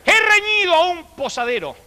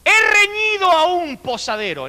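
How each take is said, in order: First: Hammed-up formal teacher; mock teacher's dictation. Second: High, slow, lofty dictation voice; hammed-up formal teacher; mock teacher's dictation. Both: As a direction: recite it like a prim old schoolmistress. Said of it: "y dijo".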